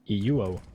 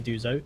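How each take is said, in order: First: The name is said without a z sound. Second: The name is said with a z sound. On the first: The speaker calls it right. "not even a Z" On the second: The speaker calls it wrong. "I'm pronouncing Iduzo's name wrong because it's not actually Iduzo"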